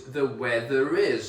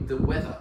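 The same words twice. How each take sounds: First: The weather is, R of weather linked into is; linking R demo. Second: The weather with no final R; British weather without R; non-rhotic. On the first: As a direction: sound the R in weather before is. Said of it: "there is a vowel coming after that word, we do pronounce it". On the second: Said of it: "we don't actually pronounce the R". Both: Shown as a demonstration.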